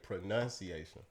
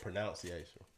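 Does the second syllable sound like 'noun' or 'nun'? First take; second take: nun; noun. First: The second syllable sounds like 'nun'. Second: The second syllable sounds like 'noun'. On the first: The speaker calls it right. "you say pronunciation" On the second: The speaker calls it wrong. "instead of pronunciation"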